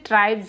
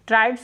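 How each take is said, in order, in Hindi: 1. यह शब्द z ध्वनि से खत्म होता है। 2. यह शब्द s ध्वनि से खत्म होता है। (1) "ट्राइब्स होते हैं" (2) "ट्राइब्स नहीं होते"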